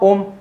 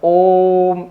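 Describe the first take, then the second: First: The vowel is short and not prolonged. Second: The vowel is stretched out very long. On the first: The speaker calls it wrong. "तो ऐसे नहीं उच्चारण करते इसका" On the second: The speaker calls it right. "यहां पे हमें इसको खींच के बोलना पड़ेगा"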